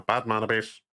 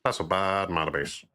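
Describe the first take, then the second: First: Said in the usual way. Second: A softer, mock know-it-all nerd; lightly voiced nerd sneer. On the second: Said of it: "the, the nerd voice".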